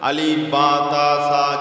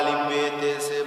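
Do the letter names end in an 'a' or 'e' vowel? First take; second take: a vowel; e vowel. First: The letter names end in an 'a' vowel. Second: The letter names end in an 'e' vowel.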